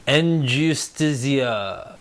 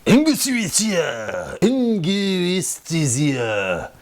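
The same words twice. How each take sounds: First: Said in the usual way. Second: "Angustia" drawn out very slowly, falling away; mock-struggle through "Angustia", stretched syllable by syllable; overdone, dragged-out stab at "Angustia"; butchered name. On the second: Shown as a demonstration. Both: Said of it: "I'm butchering your name".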